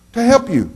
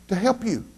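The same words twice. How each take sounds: First: High and full-voiced; emphatic repeat. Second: High but hushed; soft answer. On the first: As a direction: ring out "help" to the back row. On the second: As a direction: drop it almost to a breath. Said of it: "you know why your preacher's doing that?". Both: Shown as a demonstration.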